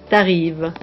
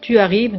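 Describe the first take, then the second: First: The u vowel of tu is dropped. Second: The u vowel of tu is fully pronounced.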